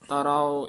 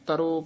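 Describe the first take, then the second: First: The ending is drawn out over two vowels. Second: The ending is one short clipped vowel. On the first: The speaker calls it right. "ਇਸ ਤਰ੍ਹਾਂ ਉਚਾਰਨ ਕਰਨੇ ਆ" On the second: The speaker calls it wrong. "ਇਸ ਤਰ੍ਹਾਂ ਨਹੀਂ ਬੋਲਣਾ"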